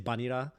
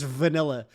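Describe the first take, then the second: First: The word begins with a B sound. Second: The word begins with a V sound. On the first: This is the usual everyday way to say it. "they just say banira" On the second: The character deliberately uses the foreign sound. "Like she says vanilla"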